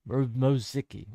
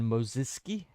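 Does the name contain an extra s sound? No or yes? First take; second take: no; yes. First: The name is said without the extra s sound. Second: The name is said with an extra s sound. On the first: The speaker calls it right. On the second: The speaker calls it wrong.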